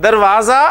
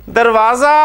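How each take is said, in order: The two takes are said the same way.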